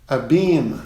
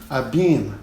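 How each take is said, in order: No difference in how they are said.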